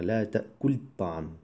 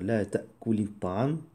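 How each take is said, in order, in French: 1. Le verbe se termine sans voyelle avant le nom. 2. Une courte voyelle de liaison relie le verbe au nom. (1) "que de dire" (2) "c'est plus facile de dire"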